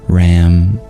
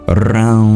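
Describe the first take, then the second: First: It is said with a plain English R and M. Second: It has a rolled R and a nasal ending. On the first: The speaker calls it wrong. "just saying Ram, Ram, Ram. If you were to just read it in English" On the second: The speaker calls it right. "the retroflex, rolled R, and the nasalized sound"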